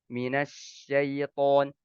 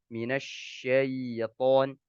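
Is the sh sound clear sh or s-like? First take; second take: s-like; clear sh. First: The sh sound is blurred toward an s. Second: The sh sound is clear and spread. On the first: The speaker calls it wrong. "suara yang keluar bercampur dengan huruf sin" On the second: The speaker calls it right. "Ada sifat tafasyinya"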